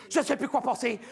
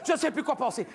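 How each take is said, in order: Both takes have the same delivery.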